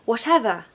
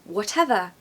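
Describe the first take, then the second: Both takes have the same delivery.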